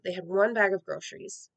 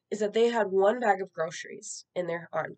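First: Bag lifted and dropped, pointed; stress on bag. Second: Said in the usual way. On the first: Real, not acted. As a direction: lean on the word bag to make it sink in. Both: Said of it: "repeats to stress it".

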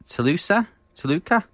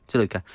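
First: Toluca with rising unsure tone; unsure questioning. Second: Toluca said settled and falling; corrected. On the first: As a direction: ask Toluca hesitantly. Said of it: "I struggle to pronounce some things". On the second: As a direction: confirm Toluca firmly. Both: Real, not acted.

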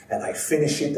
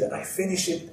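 First: Put-on "finish" rising, Italian accent, building. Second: Put-on "finish" higher then falling, much softer, Italian accent; Italian accent, softer emphatic. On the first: [name] telling the crowd, Italian accent rising. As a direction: lift "finish" like the story is still going. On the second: [name] telling the crowd, softer Italian accent. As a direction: land "finish" with proud finality. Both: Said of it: "heavy kind of Italian accent".

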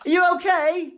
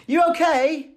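First: High Manchester English "You okay?" again; English accent. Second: High Manchester English "You okay?"; English accent. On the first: Mimicking how the illustrator says hello, English accent. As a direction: lilt it up high, Mancunian style. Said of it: "that's just how she says hello". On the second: Imitating the illustrator's Manchester greeting, English accent. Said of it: "You love the accent". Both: Retold or imitated.

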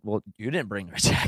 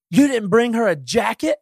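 First: Low, muttered inner comeback; silent retort. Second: High, slow, accusing wife's voice; mock wife scolding. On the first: Retold or imitated. Husband's unspoken reply to his wife, quiet and low. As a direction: say it under your breath, lower and softer. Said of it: "I'm thinking". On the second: Quoting his wife's reproach at Home Depot, high and accusing. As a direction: imitate her disbelief, a lot higher and slower. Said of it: "Bridget ... goes".

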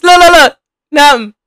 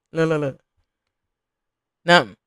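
First: Higher and louder look look look; excited shout at the dancers on screen; excited calling out. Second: Low, muttered look look look; quiet low mutter at the screen. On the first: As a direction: call it out at the screen. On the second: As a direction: mumble it under your breath. Urging dancer on screen, low. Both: Real, not acted.

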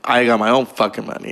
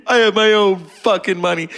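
First: Said in the usual way. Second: High-pitched mock movie outburst; crazed defiance. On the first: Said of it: "Yet she just said to him earlier". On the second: Casino character telling off Joe Pesci, crazed and defiant. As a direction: throw it out as an acted, defiant boast. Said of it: "She played crazy really well".

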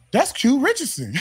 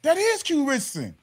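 First: High-pitched imitation of amazed recognition; startled recognition. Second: "is" stretched high in amazed confirmation; stress on "is". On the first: First officer spotting the player, startled. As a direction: blurt it out as if spotting someone famous. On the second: Retold or imitated. Second officer confirming the player, stressing "is". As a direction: lean on "is", pitched up, confirming it.

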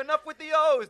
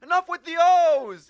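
First: Loud high mock boss shout; hammed-up mafia boss yelling. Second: Loud high mock boss shout with a laugh; hammed-up mafia boss yelling. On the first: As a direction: shut the cheering down like a mob boss. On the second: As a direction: bellow like the mob boss in the show. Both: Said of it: "and then the head mafia guy's".

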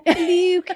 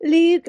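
First: "Luke" said high and drawn out; "Luke" like the Witches grandma; Witches grandma's Luke. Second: "Luke" said high and loud; "Luke" like a fussy old grandma; Witches grandma's Luke. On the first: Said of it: "Oh, yeah". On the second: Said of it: "That's right". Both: Retold or imitated.

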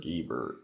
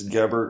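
First: Guibert with a long ee, GEE-bert with hard g; elongated first E. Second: Gebert with a short e in the first syllable. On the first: Guest giving surname variant, Guibert with long first E. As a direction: stretch the first vowel of Guibert to ee. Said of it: "elongate a first E". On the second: Guest correcting his surname, Gebert with short first E. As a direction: say Gebert with GEB as in web. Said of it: "depending upon where they're from". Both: Shown as a demonstration.

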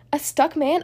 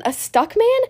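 First: Said in the usual way. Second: High, rising puzzled question. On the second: Acted. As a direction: repeat it in disbelief. Stickman hears the voice.

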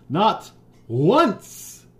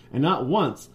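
First: "not once" punched high and loud; emphatic repetition. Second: Said in the usual way. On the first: A narrator's reading. Reader stressing the forgotten birthday, "not once" loud and high. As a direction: hit "not once" hard, pitch leaping up.

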